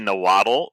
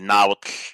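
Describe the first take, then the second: First: The ending is pronounced the usual English way. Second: The ending has the native 'tl' sound. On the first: "in English, most people say Nahuatl" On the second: "in the language itself, you would say Nahuatl"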